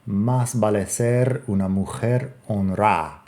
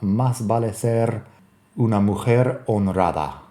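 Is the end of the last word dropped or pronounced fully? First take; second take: dropped; pronounced fully. First: The last word is clipped, its ending dropped. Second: The last word is said in full, ending intact. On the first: "that would be an approximation" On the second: "My pronunciation there on honrada is not all that great"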